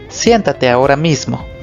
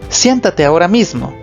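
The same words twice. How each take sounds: First: It is said in a flat, neutral tone. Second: It is said in a firm, commanding tone. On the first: It is not said as an order. "No es igual que decir" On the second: It is an order. "Los signos de exclamación nos indican que debemos de darle un tono de orden"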